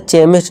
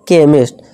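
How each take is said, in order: First: The word begins with a ch sound. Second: The word begins with a k sound. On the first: The speaker calls it wrong. "इसे चेमिस्ट नहीं" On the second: The speaker calls it right. "का की आवाज"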